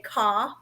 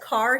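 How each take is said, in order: First: The word is said with a regional accent. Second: The word is said in a plain, neutral way. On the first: "starting to get a little bit of an accent" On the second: "when he says car"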